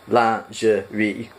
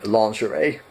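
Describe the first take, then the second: First: It is said with a French-like pronunciation. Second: It is said with an American English pronunciation. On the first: The speaker calls it right. "It's actually more like lingerie" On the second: The speaker calls it wrong. "in American pronunciation"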